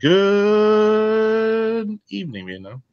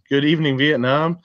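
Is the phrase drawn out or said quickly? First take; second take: drawn out; quickly. First: It is said slowly, with words dragged out. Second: It is said quickly, without dragging.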